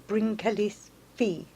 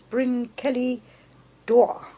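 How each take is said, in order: First: The name is said with a Welsh pronunciation. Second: The name is said with an anglicized pronunciation. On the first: The speaker calls it right. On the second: The speaker calls it wrong.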